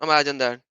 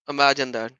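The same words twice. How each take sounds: The two takes are said the same way.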